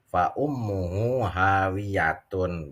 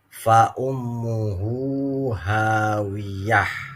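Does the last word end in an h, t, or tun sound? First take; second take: tun; h. First: The last word ends in a full tun sound. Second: The last word ends in a soft h sound. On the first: The reader continues into the next verse. "wasol, ... benar" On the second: The reader stops at the end of the verse. "berhenti lebih utama"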